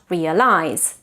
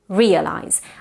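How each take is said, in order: First: The stress is not on the first syllable. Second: The stress is on the first syllable. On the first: The speaker calls it wrong. "Not realize" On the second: The speaker calls it right. "Stress on the first syllable"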